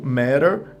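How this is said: It is said with an American accent. "é uma pronúncia mais americana"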